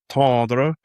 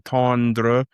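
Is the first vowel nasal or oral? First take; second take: nasal; oral. First: The first vowel is nasal with no clear n. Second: The first vowel is oral with a clear n. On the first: The speaker calls it right. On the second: The speaker calls it wrong.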